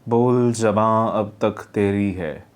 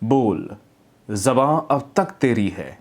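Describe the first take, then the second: First: It is read flatly with low energy. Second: It is read with strong stress and energy. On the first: The speaker calls it wrong. "मतलब इस तरह से डल जा रहा है" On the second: The speaker calls it right. "यहाँ पे इस तरह से आपने स्ट्रेस लिया"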